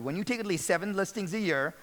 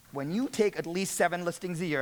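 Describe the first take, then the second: First: Same line, weight on take; breaking it down. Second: Script line read with weight on you. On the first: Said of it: "I wanna break this down for you". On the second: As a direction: read it out like the real pitch. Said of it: "Let me read it to you". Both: Shown as a demonstration.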